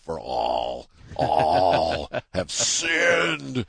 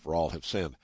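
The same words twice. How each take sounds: First: It is said in a stern, judgmental tone. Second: It is said in a plain, matter-of-fact tone. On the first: It passes judgment and condemns. The speaker calls it wrong. "you had to get the voice of God into it. It had to be judgmental" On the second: It simply states a fact. The speaker calls it right. "I never said it as if it was a matter of fact"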